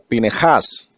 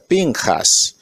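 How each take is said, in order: First: A vowel is heard between n and j. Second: There is no vowel between n and j. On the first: The speaker calls it right. "en la realidad se pronuncia, suena como Pinejás" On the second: The speaker calls it wrong. "Algunos dicen Pinjas"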